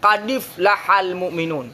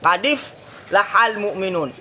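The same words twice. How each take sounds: Both takes have the same delivery.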